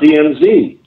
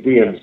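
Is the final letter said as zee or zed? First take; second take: zee; zed. First: The last letter is said the American way, zee. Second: The last letter is said the Canadian way, zed.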